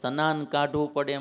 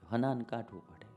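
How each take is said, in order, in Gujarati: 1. પહેલો શબ્દ sn અવાજથી શરૂ થાય છે. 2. પહેલો શબ્દ h અવાજથી શરૂ થાય છે. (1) "એમ બોલી સારું ન લાગે" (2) "હનાન જે શબ્દ જે હોય ને મૂળ એમાં મજા આવે"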